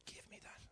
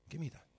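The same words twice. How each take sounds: First: Whispered plea to hand it over. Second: Said in the usual way. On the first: Acted. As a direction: Give me that in a soft unvoiced whisper. Dad voiced, voiced then whispered.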